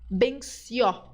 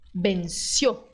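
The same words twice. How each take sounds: First: The final O vowel is open. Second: The final O vowel is closed. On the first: The speaker calls it wrong. "Você, como brasileiro, tem a tentação de dizer benció" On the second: The speaker calls it right. "Mas você tem que fechar essa letra O. Você tem que dizer benció"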